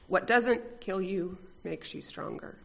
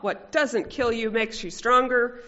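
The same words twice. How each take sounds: First: It is said grimly, with gritted determination. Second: It is said lightly, in a joking tone. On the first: Real hardship is being endured. "with grim determination" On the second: A small mishap is being laughed off. "mostly joking"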